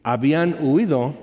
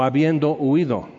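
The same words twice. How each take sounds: First: "habían" said clearly as a finished past; "habían huido" stressed on "huido" with a falling tune; contrasting habían. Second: "habiendo" said clearly as an ongoing process; "habiendo huido" stressed on "habiendo" with a falling tune; contrasting habiendo. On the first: ("habían" marcado, con "huido" acentuado y tono descendente) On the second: ("habiendo" marcado y acentuado, tono descendente) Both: Shown as a demonstration. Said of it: "Es diferente decir".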